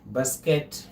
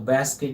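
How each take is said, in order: First: It is said with a British pronunciation. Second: It is said with an American pronunciation. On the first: "Basket uh, is uh, British pronunciation" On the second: "So basket is American pronunciation"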